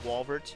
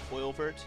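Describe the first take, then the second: First: The name begins with a 'w' sound. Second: The name begins with an 'oy' sound. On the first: "like there's a W there" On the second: "like oil"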